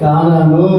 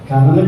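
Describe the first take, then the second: First: The first two vowels are said long. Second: The first two vowels are said short. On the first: The speaker calls it right. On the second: The speaker calls it wrong. "కనను కాదు"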